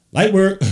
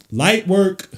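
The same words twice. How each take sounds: First: Shouted high and loud, celebrating the bucket; hyped exclamation. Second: Drawn-out, high and loud, savouring each word; stretched hype. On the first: Streamer hyping Brunson's mid-range bucket, shouting. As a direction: yell it like the shot just dropped. Hype after Brunson scores. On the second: Streamer savouring Brunson's bucket, drawn-out loud repeat. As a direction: stretch it out, loving the play. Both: Real, not acted.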